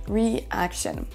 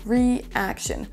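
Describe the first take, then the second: The two takes are said the same way.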